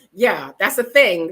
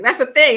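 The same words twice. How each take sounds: First: Said in the usual way. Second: Emphatic. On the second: Real, not acted.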